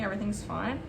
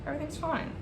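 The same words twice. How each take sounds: First: Softer, telling herself everything's fine; a quiet self-soothing mantra; forced calm. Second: Higher, softer, clearly not fine; strained high denial. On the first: Baker soothing herself as the cake cracks, forced calm. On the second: Baker as the cake breaks, strained high denial. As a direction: squeak it out in denial. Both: Real, not acted. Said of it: "Oh, it's not fine".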